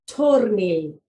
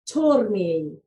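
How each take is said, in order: No difference in how they are said.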